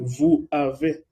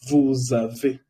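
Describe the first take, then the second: First: The S is not linked to the vowel. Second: The S is linked to the vowel. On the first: The speaker calls it wrong. "no puedo decir vous avez" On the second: The speaker calls it right. "Se dice vous avez"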